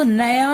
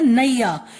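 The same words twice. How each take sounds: First: नया with a short first vowel, na-ya; wrong pronunciation. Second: नैया with a clear ai glide, nai-ya; correct pronunciation. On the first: Teacher showing what is not said, short-vowel नया. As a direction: say नया without the ai glide. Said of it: "तो नया नहीं बोलते". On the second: Teacher showing how it is said, gliding नैया. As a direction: glide through the first vowel of नैया. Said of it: "उसको बोलते हैं नैया". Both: Shown as a demonstration.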